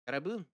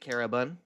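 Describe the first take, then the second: First: The last syllable has an 'oo' vowel. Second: The last syllable has an 'uh' vowel. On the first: "it only has an ooh, like it lacks the vowel uh" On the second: "I say Carabun because it's how you say it"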